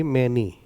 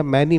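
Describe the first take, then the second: First: मैनी said with a closer e, "MEN-ee"; correct pronunciation. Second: मैनी said with an open "ai" vowel, "MAN-ee"; mistaken pronunciation. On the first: Teacher correcting students' reading, मैनी modelled as "MEN-ee". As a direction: close the first vowel of मैनी to "e". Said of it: "इसको आप पढ़िए". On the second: Teacher telling students not to read it so, मैनी with open vowel. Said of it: "मत पढ़िए". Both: Shown as a demonstration.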